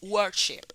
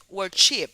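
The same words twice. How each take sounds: First: The stress is on the first syllable. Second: The stress is on the second syllable. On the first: The speaker calls it right. "es átona la última" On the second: The speaker calls it wrong. "No decimos worship"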